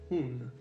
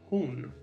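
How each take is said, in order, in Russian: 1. Звук h в начале мягкий и с придыханием. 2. Звук h в начале мягкий и с придыханием.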